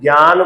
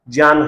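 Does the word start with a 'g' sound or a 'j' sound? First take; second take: g; j. First: The word starts with a 'gy' sound. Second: The word starts with a 'jny' sound. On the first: This is the common popular usage. The speaker calls it wrong. "जय को गे बोलने का प्रचलन चल पड़ा है" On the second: This is the strictly correct form. The speaker calls it right. "सही मायने में तो इसका उच्चारण क्या होना चाहिए?"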